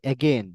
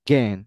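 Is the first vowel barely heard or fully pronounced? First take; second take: full; barely heard. First: The first vowel is fully and clearly pronounced. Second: The first vowel is very weak, barely heard. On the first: The speaker calls it wrong. "আমরা বলি অ্যাগেন" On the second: The speaker calls it right. "এটা হবে অ্যাগেন, গেন"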